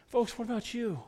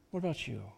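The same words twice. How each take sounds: First: Pointed question. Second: Softer repeat of the same question; quiet echo. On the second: Pastor quietly repeating his question to the congregation. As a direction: let it drop to a soft echo. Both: Shown as a demonstration.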